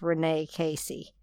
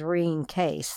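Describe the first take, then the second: First: The name is said in four syllables. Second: The name is said in two short syllables. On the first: This is how the spelling makes the name look. "The way it's written, it looks like it's Renee Casey" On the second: This is how the name is actually pronounced. "French-Canadian pronunciation is Reen Case"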